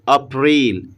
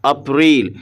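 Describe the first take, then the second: The two takes are said the same way.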